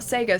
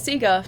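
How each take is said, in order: First: Sega is said a different, non-Australian way. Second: Sega is said the usual Australian way. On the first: This is how people say it elsewhere. "not Sega" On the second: This is how people say it in Australia. "everyone I know of here says Sega"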